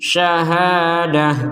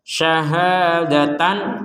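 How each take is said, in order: First: The word ends with a soft h sound. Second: The word ends with the syllable tan. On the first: The reader stops on this word. "kalau kita berhenti, maka tidak lagi dibaca syahadatan, tapi dibaca syahadah" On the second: The reading continues into the next word. "kalau digabungkan"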